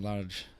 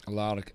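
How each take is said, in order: First: Slow Large with a J ending, Scottish-style; Scottish soft G. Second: Slow Larg with a hard G, Scottish-style. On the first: Commentator comparing names in Scottish accent, Large with soft G. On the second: Commentator comparing names in Scottish accent, Larg with hard G. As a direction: say Larg slowly, ending on hard G. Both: Shown as a demonstration. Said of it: "in a Scottish accent".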